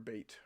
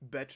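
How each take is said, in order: First: The vowel sounds like the one in 'bait'. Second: The vowel sounds like the one in 'bet'. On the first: The speaker calls it wrong. "It's not beat or bait or whatever I thought it was" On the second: The speaker calls it right. "is apparently how you say it"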